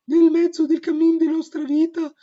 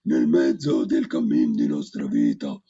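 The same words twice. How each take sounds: First: The voice is a high, light falsetto. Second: The voice produces several pitches at once. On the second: "I multifonico"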